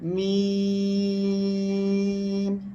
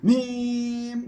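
First: The voice is held at a medium level. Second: The voice is pushed too high or too low. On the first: The speaker calls it right. "একেবারে মাঝামাঝি আপনার আওয়াজটা আসতে হবে" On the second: The speaker calls it wrong. "মিম যদি এভাবে পড়েন তাহলে কিন্তু আপনার ভুল হয়ে যাবে"

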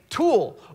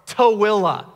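First: The name is said as a single syllable. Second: The name is said with several syllables. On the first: The speaker calls it wrong. "you think it's Tool or Thule. Nope" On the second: The speaker calls it right. "Tooele is 5 syllables that aren't even in that word"

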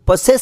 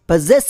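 First: The middle consonant is a hissing s sound. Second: The middle consonant is a buzzing z sound. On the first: The speaker calls it wrong. "ಸಾ ಶಬ್ದ ಬಳಸಿ ಪೊಸೆಸ್ ಅಂತ ಉಚ್ಚಾರಣೆ ಮಾಡ್ತಾರೆ" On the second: The speaker calls it right. "ಸರಿಯಾದ ಉಚ್ಚಾರಣೆ ... ಝ ಶಬ್ದ ಬಳಸ್ತೀವಿ"

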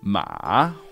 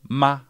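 First: The pitch dips down and then rises. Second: The pitch stays high and level throughout. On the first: It means horse. "the big down up one" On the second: It means mother. "it's essentially the highest point in your vocal range"

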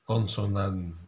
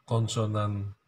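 No difference in how they are said.

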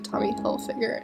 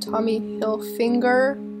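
First: No N sound comes before the G. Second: An N sound comes before the G. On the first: The speaker calls it right. "it's actually Tommy Hilfiger, no N" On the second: The speaker calls it wrong. "now here I am saying it wrong"

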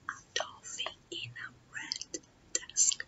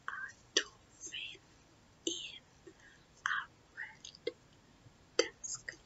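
First: It is said faster. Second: It is said slowly and calmly.

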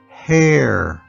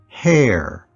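First: The word is said slowly. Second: The word is said quickly. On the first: "followed by slow one time" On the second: "followed by saying it fast again"

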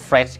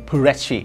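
First: The word is said with an English accent. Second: The word is said with a Korean accent. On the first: "มาจากคำว่า, Fresh, ครับทุกคนในภาษาอังกฤษ" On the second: "เวลาเราออกเสียงเป็นภาษาสำเนียงเกาหลีเนี่ยจะเป็น"

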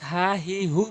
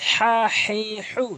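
First: The h sound is light and breathy. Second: The h sound is pressed from mid-throat. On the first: The speaker calls it wrong. "অধিকাংশ লোক হা হি হু বলে, অশুদ্ধ তেলাওয়াত" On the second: The speaker calls it right. "চাপ দিয়ে হলকের মাঝখান থেকে উচ্চারণ করবেন"

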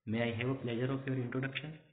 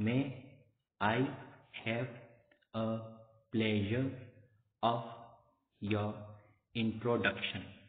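First: The sentence is spoken quickly. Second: The sentence is spoken slowly. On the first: "ये तो बहुत speed से बोल दिया मैंने" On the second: "एक बार धीरे से बोल के बताता हूँ"

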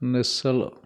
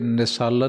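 First: The word is said loosely, with relaxed articulation. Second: The word is said tightly, with tense articulation. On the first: The speaker calls it right. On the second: The speaker calls it wrong.

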